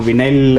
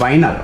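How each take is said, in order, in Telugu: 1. మొదటి అక్షరం 'vee' లా వినిపిస్తుంది. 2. మొదటి అక్షరం 'vie' లా వినిపిస్తుంది.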